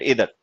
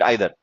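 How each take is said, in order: First: The first vowel sounds like 'ee'. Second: The first vowel sounds like 'eye'. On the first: This is how the younger generation says it. "They call it इधर" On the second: This is how the older generation says it. "They would call it आइदर"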